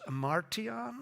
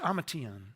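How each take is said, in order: First: The word has an R sound inside. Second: The word has neither an H nor R. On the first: "I had an R in there" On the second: "It's not an ima"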